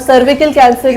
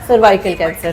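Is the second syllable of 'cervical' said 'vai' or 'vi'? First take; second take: vi; vai. First: The second syllable has a short 'vi' sound. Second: The second syllable has a 'vai' diphthong sound. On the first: The speaker calls it wrong. "सर्विकल cancer नहीं होता" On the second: The speaker calls it right. "सर्वाइकल cancer होता है"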